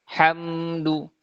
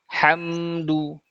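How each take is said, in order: No difference in how they are said.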